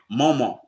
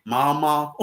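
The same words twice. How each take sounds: First: Mama with rounded first vowel, MO-mah; Mama as mo-mah, her habit; own usual Mama. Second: Mama with open ah vowels, mah-MAH; Mama as mah-mah, lightly demonstrated; Louisiana French Mama. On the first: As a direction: say Mama the way she grew up saying it. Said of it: "I'm so used to saying". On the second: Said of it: "but they say". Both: Shown as a demonstration.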